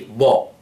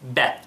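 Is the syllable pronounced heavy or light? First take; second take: heavy; light. First: The syllable is heavy with a rounded vowel. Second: The syllable is light with an open vowel. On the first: The speaker calls it wrong. "I didn't say Bo" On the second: The speaker calls it right. "It is weak"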